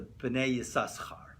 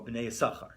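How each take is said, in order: First: Both s sounds in the name are pronounced. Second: The second s sound in the name is dropped. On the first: "They pronounce it with a two, right, like the way it should be"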